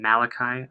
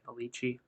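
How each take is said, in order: First: The name is said with a plain English pronunciation. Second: The name is said to sound Italian. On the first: "It's in Malachi" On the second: "I think he would say Malici"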